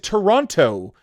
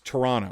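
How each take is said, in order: First: The second T is clearly pronounced. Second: The second T is dropped. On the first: The speaker is not from the city. The speaker calls it wrong. "you now know that they are not from Toronto" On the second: The speaker is a local. The speaker calls it right. "you do not pronounce the second T"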